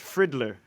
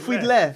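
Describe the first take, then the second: First: The name is said with an American accent. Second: The name is said with a Haitian accent.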